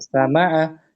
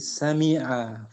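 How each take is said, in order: First: The second vowel is an a sound. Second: The second vowel is an i sound. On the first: The speaker calls it wrong. "Bukan dibaca sama'a" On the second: The speaker calls it right. "Tapi sami'a"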